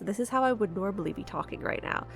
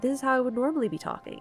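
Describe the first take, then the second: First: It is said at the speaker's normal, lower pitch. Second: It is said at a slightly higher pitch.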